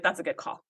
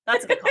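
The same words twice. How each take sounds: First: Said in the usual way. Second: High-pitched repeat; squeaky high voice. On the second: Retold or imitated. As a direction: squeak it out playfully. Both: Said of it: "I was like".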